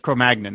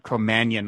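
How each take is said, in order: First: The G in the word is pronounced. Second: The G in the word is silent. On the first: "I've always heard it as Cro-Magnon" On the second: "like it's filet mignon or something, the silent G"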